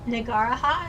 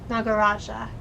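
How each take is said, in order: First: The J is pronounced like an H sound. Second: The J is pronounced as a J sound. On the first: The speaker calls it wrong. "I was trying to do the Spanish thing of pronouncing the J like an H" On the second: The speaker calls it right. "You do pronounce the J"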